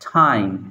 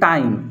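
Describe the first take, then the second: First: The t has a strong puff of air. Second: The t has no puff of air. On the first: The speaker calls it right. "উচ্চারণটা হবে কি? ... টর জায়গায় ঠ" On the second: The speaker calls it wrong. "আমরা বলি"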